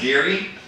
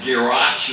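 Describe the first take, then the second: First: The name is said like 'Geary', short form. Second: The name is said like 'Girach', following spelling. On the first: The speaker calls it right. "but it's Geary" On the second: The speaker calls it wrong. "or whatever"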